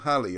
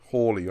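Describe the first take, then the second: First: The first vowel is short, as in 'pal'. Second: The first vowel is long, as in 'fall'. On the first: This is the common way people say it. The speaker calls it wrong. "everyone calls him Halley" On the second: This is the correct way to say it. The speaker calls it right. "the correct pronunciation is Hawley"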